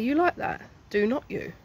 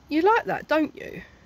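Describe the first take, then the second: First: The tag uses the full form do not. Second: The tag uses the contracted form don't. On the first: The speaker calls it right. "To be more clear" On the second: The speaker calls it wrong. "humans need to stop saying this weird stuff. It's not like correct"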